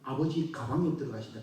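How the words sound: The break falls after 'abeoji', before 'gabang'.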